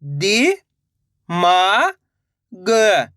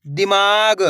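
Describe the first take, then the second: First: "दि", "मा", "ग" separated by pauses; syllable by syllable. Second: "दिमाग" in one piece, long "मा"; blended word. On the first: Teacher modelling for learners to repeat, syllable by syllable. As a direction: sound out "दि … मा … ग" one at a time. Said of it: "direct मात्रा का उच्चारण करके". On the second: Teacher reading the finished word to learners, "दिमाग" blended. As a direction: join the sounds into "दिमाग" without gaps. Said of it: "direct मात्रा का उच्चारण करके पढ़ेंगे". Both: Shown as a demonstration.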